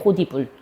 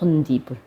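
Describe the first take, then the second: First: A plain d sound links into 'ibul'. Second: An added n sound nasalizes the link into 'ibul'. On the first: The speaker calls it wrong. "원래는 호디불. 이렇게 소리가 나야 돼" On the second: The speaker calls it right. "표준 발음은 호디불이 아니고 뭐야? 혼디불이에요"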